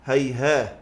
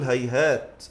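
First: هيهاه as hayhaah, h in place of t; pausing on h. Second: هيهات as hayhaat, clear final t; pausing on t. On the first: Teacher giving the permitted variant, هيهاه ending in h. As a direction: end هيهاه on a breathed h. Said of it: "ويجوز". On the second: Teacher giving the sounder pausal form, هيهات ending in t. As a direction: release a still t at the end of هيهات. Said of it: "الأصح نقول هيهات في الوقف". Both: Shown as a demonstration.

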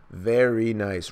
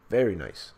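First: Very nice drawn out slowly; slow savoured praise. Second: Said in the usual way. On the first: Real, not acted. Reader admiring a panel, saying Very nice slowly.

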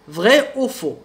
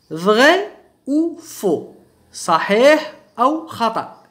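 First: Said in the usual way. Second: Very slow, spaced-out French question; slow, word by word. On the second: Shown as a demonstration. Teacher announcing a true-or-false exercise to learners, slow and word by word. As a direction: stretch each word and leave gaps between them.

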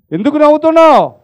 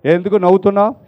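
First: ఎందుకు నవ్వుతున్నావు asked again higher and fast; insistent repeat. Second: Said in the usual way. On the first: Retold or imitated. Brother presses the laughing cherub, higher and faster. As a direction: press the question, pitch up and hurried. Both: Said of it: "అప్పుడు అన్నాడంట ఆ సహోదరుడు".

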